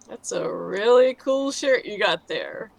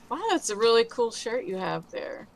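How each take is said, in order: First: It is said in a sarcastic, mocking tone. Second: It is said in a sincere, honest tone. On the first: The compliment is not meant for real. "and then demonstrate as though you're being sarcastic" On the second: The compliment is meant for real. "first demonstrate saying the sentence as though it's an honest compliment"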